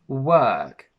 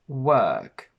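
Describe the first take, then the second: First: The vowel has extra, strong pressure. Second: The vowel has a little more pressure. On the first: "they put a little bit of extra pressure on it" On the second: "The mouth is slightly more open and there is a little bit more pressure"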